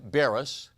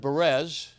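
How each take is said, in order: First: The name is said in its usual form. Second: The name is said in a mangled form. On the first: This is how the speaker's name is normally said. The speaker calls it right. "my last name is Barris" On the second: Someone else got the name wrong. The speaker calls it wrong. "he had sort of a different take on it"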